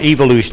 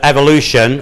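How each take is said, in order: First: It is said with a British pronunciation. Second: It is said with an American pronunciation. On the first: "as we call it here in Britain" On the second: "the American pronunciation"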